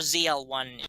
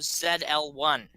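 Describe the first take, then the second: First: The letter Z is said the American way, zee. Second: The letter Z is said the British way, zed.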